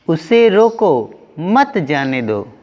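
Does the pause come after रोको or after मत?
after रोको. The pause comes right after रोको. Stop the person from going. "पहले वाक्य में जाने से रोका जा रहा है"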